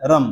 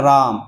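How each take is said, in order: First: रम said quickly with a short A; रम over in an instant; short vowel. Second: राम with the AA held long; long vowel. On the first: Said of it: "रम बोले तो तुरंत हो जाता है". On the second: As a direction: stretch out the middle of राम. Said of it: "राम बोलने में थोड़ा सा समय लग रहा है". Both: Shown as a demonstration.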